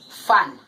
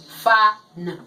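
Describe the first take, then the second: First: "fan" said as one joined word; blended word. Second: "fa" loud, then a separate "n"; sounded out. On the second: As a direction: break it into fa, pause, n. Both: Shown as a demonstration. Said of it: "So we say fa".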